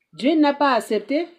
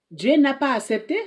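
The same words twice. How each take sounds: The two takes are said the same way.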